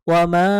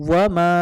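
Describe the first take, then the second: Both takes have the same delivery.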